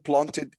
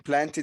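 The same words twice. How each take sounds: First: It is said in a British accent. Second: It is said in an American accent. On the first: "planted in in uh, British accent" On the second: "planted in American"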